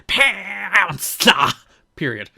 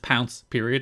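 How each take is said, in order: First: It is said loudly, with dramatic emphasis. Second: It is said flatly, without strong emphasis. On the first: "It wasn't like" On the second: "didn't have the same quite emphasis here. It was literally just"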